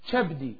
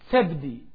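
First: The word begins with a ch sound. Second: The word begins with a t sound. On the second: This is how the speaker's own community says it. "Our people said tabdi"

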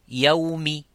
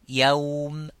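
First: The word ends with a short vowel. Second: The word ends on a bare consonant. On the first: "avec la haraka qui sont les voyelles ou voyelles courtes" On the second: "par un soukoun"

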